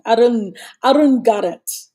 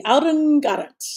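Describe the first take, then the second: First: "Arun Garrett" said with a playful twist on the name. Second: "Arun Garrett" again, higher and bouncier; playful name twist. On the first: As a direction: stretch "Arun" teasingly, as a nickname. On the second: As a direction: lift "Arun" high as a teasing nickname. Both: Shown as a demonstration. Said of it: "I'll have a spin on his name".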